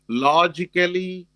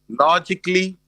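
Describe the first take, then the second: First: The ending is said as a full 'ally'. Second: The ending is said as a reduced 'ly'. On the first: The speaker calls it wrong. "So it's not basically, logically" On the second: The speaker calls it right. "It's like basically, logically"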